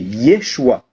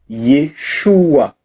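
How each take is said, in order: First: The name is said more quickly. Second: The name is said more slowly. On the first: It is the name Jesus. "C'est un peu plus rapide" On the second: It is the name Joshua. "Écoute"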